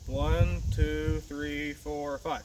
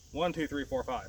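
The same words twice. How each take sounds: First: The count is at a moderate, slower pace. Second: The count is at a fast pace.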